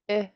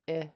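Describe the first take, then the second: First: The vowel is said on a high pitch. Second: The vowel is said on a low pitch. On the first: "and then a high tone I" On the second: "you have a low tone I"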